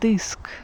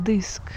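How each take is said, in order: Both takes have the same delivery.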